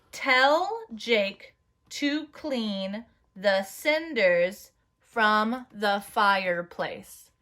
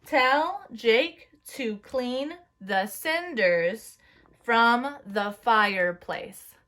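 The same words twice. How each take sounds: First: Very slow, evenly spaced sentence; slow dictation. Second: Slow, each word of "Tell Jake to clean the cinders" hit evenly; pounding each word. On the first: Teacher dictating a sentence to the class. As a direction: dictate each word slowly. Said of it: "I'm gonna say it first". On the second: Class pounding fists to each word. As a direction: beat out every word like a fist pound. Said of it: "say it with me first with pounding your fist". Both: Shown as a demonstration.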